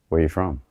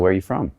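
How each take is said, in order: First: It is spoken slowly, in a calm way. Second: It is spoken quickly, without lingering. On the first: The speaker calls it right. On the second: The speaker calls it wrong.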